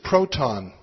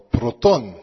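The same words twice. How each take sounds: First: The word is said with an English pronunciation. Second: The word is said with a Greek pronunciation.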